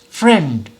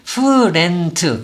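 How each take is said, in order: First: The word is said in one single beat. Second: The word is broken into several beats. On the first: The speaker calls it right. "이렇게 소리를 한 박자로 내야 되지" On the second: The speaker calls it wrong. "friend 이렇게는 안 된다는 거죠"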